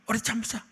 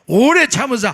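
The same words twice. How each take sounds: First: It is read lightly and carelessly. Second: It is read slowly with heavy, strained feeling.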